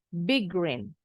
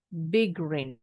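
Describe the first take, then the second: No difference in how they are said.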